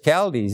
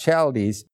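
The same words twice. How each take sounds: First: The word begins with a hard k sound. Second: The word begins with a ch sound. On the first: The speaker calls it right. "so I know it's Chaldees" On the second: The speaker calls it wrong. "It's not Chaldees"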